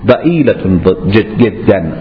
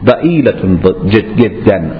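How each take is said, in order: First: It is said in an Egyptian Arabic accent. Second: The same.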